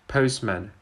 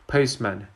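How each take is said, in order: First: The t sound is dropped. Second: The same.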